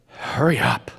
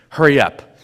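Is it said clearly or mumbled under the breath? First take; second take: mumbled; clearly. First: It is mumbled quietly under the breath. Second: It is said clearly in a normal voice.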